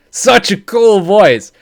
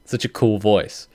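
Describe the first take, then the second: First: Excited gush. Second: Said in the usual way. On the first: Real, not acted. Gushing to viewers about the voice, excited. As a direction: stretch it out like a gushing fan. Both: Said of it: "I got so super excited".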